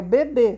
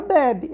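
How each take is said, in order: First: "bebê" stressed on the final BÊ; "bebê" with the weight at the end; stress on final syllable. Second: "bebe" stressed on BE, open e; "bebe" with a weak ending; stress on first syllable. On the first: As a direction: land on a closed ê in "bebê". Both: Shown as a demonstration. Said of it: "tá vendo?".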